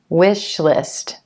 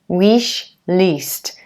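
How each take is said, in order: First: The vowel in list is a short relaxed i. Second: The vowel in list is a long tense ee. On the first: The speaker calls it right. "instead of wish list" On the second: The speaker calls it wrong. "you may tend to pronounce it more like an E as in green. So it sounds like wish least"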